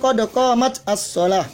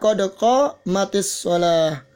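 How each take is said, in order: First: The t ends without a vowel before the next word. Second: The t takes an i vowel linking to the next word. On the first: This is the underlying form before joining. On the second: This is the form used when the words are joined. "maka terpaksa harus dikasroh"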